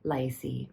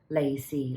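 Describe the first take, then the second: First: The first syllable sounds like 'lie'. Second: The first syllable sounds like 'lay'. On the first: The speaker calls it wrong. "I always said Lai Si Feng as Lai Si" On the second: The speaker calls it right. "But it's actually Lacy"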